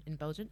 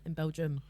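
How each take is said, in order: First: "In Belgium" with a rising, unsure end; tentative "Belgium", lifted at the end; questioning. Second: "In Belgium" with a falling, decided end; matter-of-fact "Belgium", closed at the end; settled statement. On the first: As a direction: softly check "Belgium" as a question. Checking the word, then settling it. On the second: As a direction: confirm "Belgium", letting the tune drop. Settles the word after asking. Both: Shown as a demonstration.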